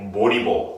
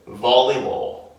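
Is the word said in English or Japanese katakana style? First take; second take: katakana; English. First: It is said with Japanese katakana-style sounds. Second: It is said with English sounds, lip bitten. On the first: The speaker calls it wrong. "That's katakana English" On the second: The speaker calls it right. "You want them to say volleyball. Bite"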